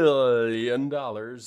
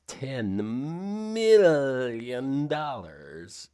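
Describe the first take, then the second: First: It is said in his normal voice. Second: It is said in a Doctor Evil voice.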